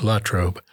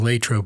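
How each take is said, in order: First: The first syllable sounds like "la". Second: The first syllable sounds like "lay". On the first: This is the original pronunciation. "it may have started out as Latrobe" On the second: This is the pronunciation locals came to use. "it became Latrobe for every high school student"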